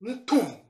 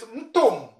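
First: "mtum" in the standard form, humming m before tum; standard vowel sound. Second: "mtum" in the dialect variant, humming m straight into tum; dialect vowel sound. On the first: Teacher giving the form the dialect replaces, standard vowel sound. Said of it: "So without accent on you". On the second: Teacher contrasting a dialect word for mouth, dialect vowel sound. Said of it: "another letter, uh, and sound. It is mtum". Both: Shown as a demonstration.

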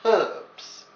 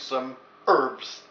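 First: Herbs said the English way with a sounded h, higher and stressed. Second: Herbs said the American way, erbs with a silent h. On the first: Host insists on the English herbs, stressed. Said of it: "But I'm English, so it's". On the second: Host mocks the American way of saying herbs. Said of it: "or for the Americans". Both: Shown as a demonstration.

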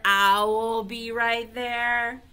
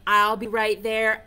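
First: "I will" drawn out like "owl"; owl pun. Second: Said in the usual way. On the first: Shown as a demonstration. Teacher showing the owl joke, "I will" stretched into "owl". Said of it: "That's funny. Instead of". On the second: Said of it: "Instead of".

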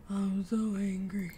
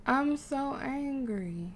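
First: Slow, understated mock anger; understated frustration. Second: Very slow, stressed mock anger; drawn-out frustration. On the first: Player failing to make a resolution, mildly angry. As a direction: draw out the mild frustration. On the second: Player failing to make a resolution, drawn-out mock anger. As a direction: stretch each word, playfully cross. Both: Real, not acted.

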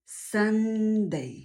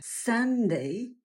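First: Sunday with the first syllable stretched out; pronunciation demo. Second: Said in the usual way. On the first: Shown as a demonstration. Teacher shows how to pronounce the day's name, drawn-out Sunday. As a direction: say Sunday carefully, holding its opening sounds. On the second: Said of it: "jak je wypowiadać poprawnie".

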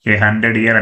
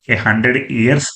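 First: Said in the usual way. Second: "ఇయర్స్" with an added final s; incorrect plural ending. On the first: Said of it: "A hundred ఇయర్స్ అని అనకూడదు". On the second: Shown as a demonstration. Teacher warning students off the plural, "ఇయర్స్" ending in s. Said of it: "అని అనకూడదు".

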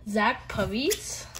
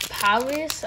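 First: Said in the usual way. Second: A quick mock French accent on "Paris", said "pa-REE" with the s dropped; a light, playful hint of a French accent on "Paris". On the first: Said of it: "I don't know why I said that in". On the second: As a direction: toss off "Paris" the French way, as a joke. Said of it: "a French accent".

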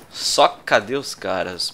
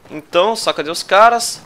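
First: "Só cadê os caras?" drawn out slowly, every syllable clear; slow careful pronunciation. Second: Said in the usual way. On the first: Shown as a demonstration. Streamer showing off his pronunciation, slow and deliberate. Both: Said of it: "Boa, boa pronúncia".

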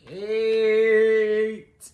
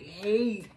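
First: "hate" held long and much louder; stressed word. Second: Said in the usual way. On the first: Shown as a demonstration. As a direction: lean hard on "hate", draw it out. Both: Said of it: "emphasis on the".

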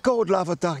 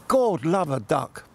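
First: Lightly Cockney, "God love a duck" pitched higher; a hint of a Cockney bobby, voice raised; Cockney copper. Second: Slow, light Cockney copper voice, "God love a duck" drawn out; a hint of a Cockney policeman, taken slowly.

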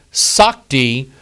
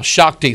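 First: "Sakti" said with a plain S at the start; older pronunciation. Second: "Shakti" opening with a SH sound; modern pronunciation. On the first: Preacher quoting an old book, older pronunciation of "Sakti". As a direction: say "Sakti" slowly, opening on S rather than SH. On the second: Preacher showing today's pronunciation, "Shakti" with SH. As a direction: say "Shakti" with SH in place of plain S. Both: Shown as a demonstration. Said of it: "which is how it's pronounced now".

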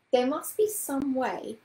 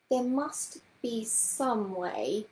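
First: Musing, drawn-out voice; slowly musing. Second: Half-speed, with pauses between the words; very slow musing. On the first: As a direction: say it slowly, working out a problem. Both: A narrator's reading. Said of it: "she was saying slowly".

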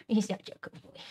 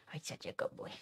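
First: Said in the usual way. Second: Soft whisper to the dog. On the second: Real, not acted. Praising her dog softly, whispered.

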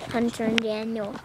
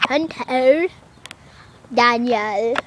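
First: Said in the usual way. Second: Attempted British pronunciation of names; amateur put-on British; British accent. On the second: Shown as a demonstration. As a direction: say "Hunter, Daniel" in mock British. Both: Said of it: "like that".

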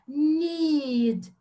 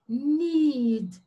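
First: Need with the ee sound drawn out long and the D barely sounded; exaggerated pronunciation. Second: Said in the usual way. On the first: Shown as a demonstration. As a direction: overdo Need: stretch the long ee, let the D fade away. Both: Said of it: "Eu vou fazer bem exagerado".

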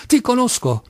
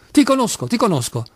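First: High-pitched angry exclamation; irate. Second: High start, then dropping on the repeat; dazed repetition. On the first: Clerk shakes his fist at Kolia, irate. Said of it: "esclamava in tono iroso". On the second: Clerk keeps repeating to Kolia, as if dazed. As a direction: repeat it as if stupefied. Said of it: "ripeteva il commesso come inebetito". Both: A narrator's reading.

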